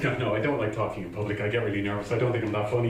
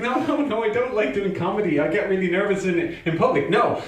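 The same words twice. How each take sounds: First: Lower, softer, quick excuse; reluctant refusal. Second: Higher-pitched mock protest; agitated refusal. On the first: Retold or imitated. Refusing the pushy friend, quietly reluctant. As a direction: back out quietly, imitating a reluctant self. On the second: Refusing the friend's urging once more, agitated. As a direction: protest harder, imitating a flustered self.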